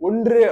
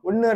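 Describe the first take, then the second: First: The full consonant cluster is pronounced in the middle. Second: The middle consonant cluster is reduced to a plain nasal. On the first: This is the pure literary form. "தூய தமிழ்ல" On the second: This is the everyday spoken form. "நம்ம பேச்சு வழக்கு அப்படி use பண்ணுவோம்"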